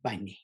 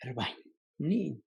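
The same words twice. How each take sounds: First: Rabani said with less breath and a lower pitch; less breathy. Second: Rabanyamniin said with very breathy vowels; strongly breathy Rabanyamniin; really breathy. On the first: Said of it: "the second one is not as breathy". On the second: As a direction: breathe heavily through Rabanyamniin. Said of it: "the first one is really breathy". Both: Shown as a demonstration.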